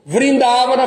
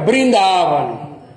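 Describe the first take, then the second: First: The word begins with a 'v' sound. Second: The word begins with a 'b' sound. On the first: This is the Sanskrit pronunciation. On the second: This is the Bengali pronunciation.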